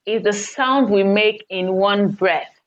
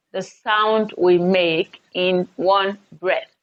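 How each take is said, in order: First: Said in the usual way. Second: Repeated slowly for the class to note; teacher repeats the definition slowly, word by word; slow emphatic repeat. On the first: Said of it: "A syllable I have here". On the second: Shown as a demonstration. Teacher to students, repeating the key definition slowly.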